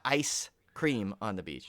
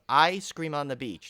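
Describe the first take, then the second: First: The s sound ends the word ice. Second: The s sound starts the word scream. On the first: It is a misreading of the title. The speaker calls it wrong. "not ice cream on the beach" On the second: It is the title of the film. The speaker calls it right. "I'm gonna have to say this correctly so you don't misinterpret"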